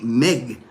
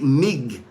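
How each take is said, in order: First: The vowel sounds like the 'e' in beg. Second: The vowel sounds like the 'i' in big. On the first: "They say it Meg. ... M E G" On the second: "they don't say it Mig. It's not M I G"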